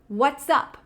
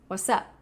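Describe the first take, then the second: First: The two words are said separately. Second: The two words are linked into one.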